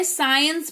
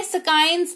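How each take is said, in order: First: साइंस with the c silent, no k; correct pronunciation. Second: स्काइंस with the c said as k; wrong pronunciation. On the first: Teacher showing the right way: साइंस, c silent. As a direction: say साइंस, starting straight on s. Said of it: "साइंस पढ़ते हैं". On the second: Teacher showing the wrong way: स्काइंस with a k sound. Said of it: "स्काइंस नहीं पढ़ते हैं". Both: Shown as a demonstration.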